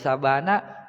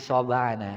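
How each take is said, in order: First: The first vowel is an open 'a' sound. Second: The first vowel is a rounded 'o' sound. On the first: This is the original form of the name. "namanya Sya'bana" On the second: This is the Sundanese twist on the name. "orang Sunda kadang-kadang kan suka diplesetin"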